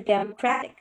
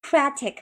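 First: "democratic" with stress off "cra"; teacher showing a wrong "democratic" that sounds odd; misplaced stress. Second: "democratic" with stress on "cra"; teacher modelling "democratic" with stress on "cra". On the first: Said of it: "很怪啊". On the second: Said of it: "说一下啊". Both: Shown as a demonstration.

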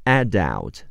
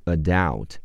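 First: "Adult" stressed on the first syllable, AD-ult; British pronunciation. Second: "adult" stressed on the second syllable, uh-DULT; American pronunciation. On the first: English teacher gives the first version of a new word, British "Adult". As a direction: open with a clear a as in cat in "Adult". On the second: English teacher contrasts the American version for learners, saying "adult" as uh-DULT. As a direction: reduce the first vowel of "adult" to a schwa. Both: Shown as a demonstration. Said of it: "美式发音是adult".

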